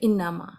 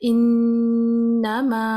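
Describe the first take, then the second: First: The n is short and plain. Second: The n is held long through the nose. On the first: "वो नॉर्मल बोलेंगे" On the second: "अब ये गुन्ना किया मैंने नून पे"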